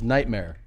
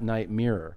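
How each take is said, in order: First: The second part sounds like 'mare'. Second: The second part sounds like 'mirror'. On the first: The speaker calls it right. "It's nightmare" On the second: The speaker calls it wrong. "not night mirror"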